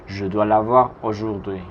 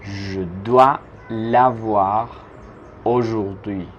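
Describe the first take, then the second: First: Said in the usual way. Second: Je dois l'avoir drawn out slowly; slow chunked. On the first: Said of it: "teacher repeats whole sentence". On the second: Shown as a demonstration. Teacher spelling out the sentence slowly for students. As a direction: dictate it in slow pieces. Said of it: "teacher builds the sentence".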